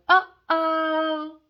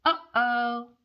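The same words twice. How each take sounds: First: High, loud sing-song uh-oh; mock alarm. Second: Milder uh-oh. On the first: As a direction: tease like trouble is coming. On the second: Acted.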